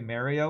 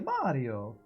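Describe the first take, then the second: First: The name is said in an American accent. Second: The name is said in an Italian accent. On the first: The speaker calls it wrong. "Americans pronouncing Mario wrong" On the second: The speaker calls it right. "his own name"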